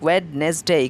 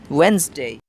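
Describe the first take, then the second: First: The word is said with three syllables. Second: The word is said with two syllables. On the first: The speaker calls it wrong. "they make it trisyllabic" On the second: The speaker calls it right. "It is D silent"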